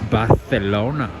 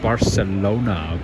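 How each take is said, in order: First: It has an affected European-style pronunciation. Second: It has a plain American pronunciation. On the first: This is the pronunciation picked up in Europe. "new pronunciations that they picked up over in Europe" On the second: This is how the speaker said it before traveling. "it's not Barcelona"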